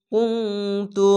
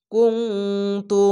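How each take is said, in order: First: কুনতু slow, with ŋ held before তু; nasal ng in কুনতু. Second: কুনতু with a nasal ŋ before তু, slowly. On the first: Teacher repeating কুনতু with its nasal hold, slow. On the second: Teacher showing the nasal sound in কুনতু, slow. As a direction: say কুনতু as kuŋtu, nasal hum held. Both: Shown as a demonstration. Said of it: "ইকফা গুন্না বাংলা অনেস্কার মতো".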